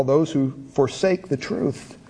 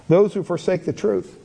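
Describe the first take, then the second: First: "forsake" leaned on, slowed down; slow, weighty reading, stress on forsake; slow emphasis. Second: Said in the usual way. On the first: Shown as a demonstration.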